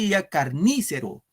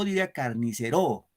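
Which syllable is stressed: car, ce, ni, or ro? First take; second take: ni; ro. First: The stress falls on the syllable ni. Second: The stress falls on the syllable ro. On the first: "Si fuera en ni, ... No decimos carnícero" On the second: "Si fuera en ro"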